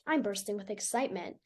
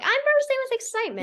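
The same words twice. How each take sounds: First: It is said in a flat, deadpan tone. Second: It is said in an excited, lively tone.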